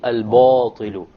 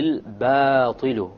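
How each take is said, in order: First: The long vowel after b sounds heavy. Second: The long vowel after b sounds light. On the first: The speaker calls it wrong. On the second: The speaker calls it right.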